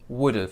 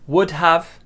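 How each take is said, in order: First: The words merge into one contracted word. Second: Two separate full words are said. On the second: "break apart"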